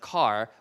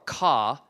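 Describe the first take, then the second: First: The final r sound is pronounced. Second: The final r sound is dropped. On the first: "instead of car" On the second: "in England, I might say, like I said before, ca"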